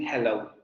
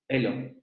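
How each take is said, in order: First: The word begins with a clear h sound. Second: The word is said with the London h-drop.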